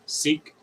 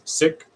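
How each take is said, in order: First: The vowel is long, like in 'seek'. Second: The vowel is short, like in 'sick'. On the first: The speaker calls it wrong. "not seek" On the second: The speaker calls it right. "so it is sick"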